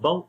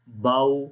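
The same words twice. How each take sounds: First: The waw sound is cut off abruptly. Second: The waw sound is said softly and easily. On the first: The speaker calls it wrong. "ना ही हमने झटका देकर पढ़ना है" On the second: The speaker calls it right. "आपने नरम पढ़ना है, इजीली जो पढ़ा जाएगा"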